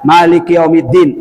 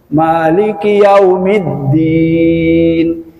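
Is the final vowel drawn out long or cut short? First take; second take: short; long. First: The final vowel is cut short. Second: The final vowel is drawn out long. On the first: The speaker calls it wrong. "Salahnya tiga" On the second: The speaker calls it right. "Panjang semua"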